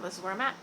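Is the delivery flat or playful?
playful. It is said in a playful, silly way. "I'm saying it kind of in a silly way"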